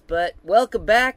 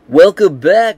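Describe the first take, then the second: First: It is said in his own natural voice. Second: It is said in a put-on announcer voice.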